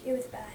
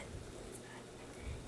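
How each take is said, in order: First: Said in the usual way. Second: Very soft, slow, unvoiced whisper; whispered echo. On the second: Real, not acted. Echoing to viewers how bad her crying was, whispered. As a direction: breathe it out like a sad afterthought.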